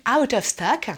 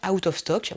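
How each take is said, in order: First: "out of stock" drawn out, American-style; mock American accent. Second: Said in the usual way. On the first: YouTubers' word before translating it, mock American accent. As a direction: stretch it slowly in a caricature American accent. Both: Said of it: "mon vrai anglais".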